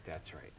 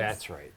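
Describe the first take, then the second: First: "that's right" repeated much softer, trailing away; quiet repeat. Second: Said in the usual way. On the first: Real, not acted. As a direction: murmur "that's right" under the breath.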